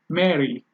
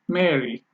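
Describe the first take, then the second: The two takes are said the same way.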